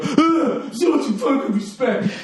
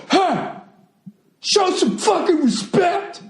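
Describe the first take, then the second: First: High, laughing mockery of the heckler; mocking heckler. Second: High, strained heckler shout; mock heckler yell. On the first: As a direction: sneer it high while laughing. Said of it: "This fucking". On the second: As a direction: mimic the angry heckler yelling. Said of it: "He starts yelling at me".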